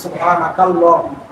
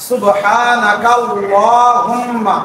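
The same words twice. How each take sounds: First: সুবহানাকা আল্লাহুম্মা with a break before আল্লাহুম্মা; separated with a pause. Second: সুবহানাকাল্লাহুম্মা slow, kaf flowing straight into লা with doubled lam; joined recitation. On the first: Teacher showing the paused way, সুবহানাকা আল্লাহুম্মা split apart. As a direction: say সুবহানাকা, stop, then আল্লাহুম্মা fresh. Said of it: "ইমাম সাহেব বলছেন সুবহানাকা আল্লাহুম্মা". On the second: Teacher demonstrating the joined reading, slow and linked. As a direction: draw out সুবহানাকাল্লাহুম্মা as one unbroken word, slow. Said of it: "তখন এভাবে পড়বো আমরা".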